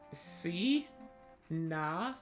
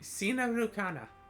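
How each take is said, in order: First: It is said slowly, syllable by syllable. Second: It is said at normal speed.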